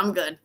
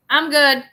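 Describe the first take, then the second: First: Said in the usual way. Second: "I'm good" louder and higher, stressed on good; emphatic brush-off. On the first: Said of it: "you were like". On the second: Retold or imitated.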